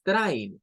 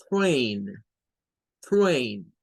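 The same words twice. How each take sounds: First: "train" with "ai", like "trine"; wrong pronunciation. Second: "train" with a long "ey", said separately; correct pronunciation. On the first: Teacher showing what the tren is not, mispronunciation. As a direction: say "train" so it rhymes with "mine". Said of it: "no es train". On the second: Teacher modelling the English for tren, correct pronunciation. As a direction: say "train" with the vowel of "day". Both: Shown as a demonstration.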